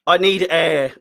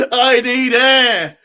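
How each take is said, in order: First: Breathless from shouting; out of breath. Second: Slow, laughing and near tears; laughing breathlessly. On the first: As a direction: gasp for air. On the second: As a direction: gasp it through laughter. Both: Real, not acted.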